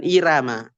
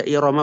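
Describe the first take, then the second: First: "irama" with a thin, open "ra"; "irama" as the mistaken light reading; wrong light ra. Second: "irama" with a thick, rounded "ro"; heavy ra. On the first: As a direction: keep the a in "irama" unrounded. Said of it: "bukan irama". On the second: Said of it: "tetap dibaca irama". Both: Shown as a demonstration.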